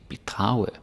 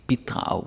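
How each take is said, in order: First: The stress is on the second syllable. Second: The stress is on the first syllable. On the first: It sounds like the word for defrauding someone. The speaker calls it wrong. "If you say bidrage, then it sounds like bedrage" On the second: It means to contribute. The speaker calls it right. "you gotta say bidrage with the stress on B"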